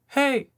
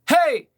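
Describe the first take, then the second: First: It is said quietly. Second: It is said loudly.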